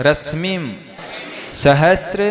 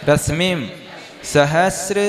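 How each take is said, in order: No difference in how they are said.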